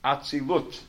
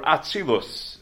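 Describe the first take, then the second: First: The word ends with a t sound. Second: The word ends with an s sound.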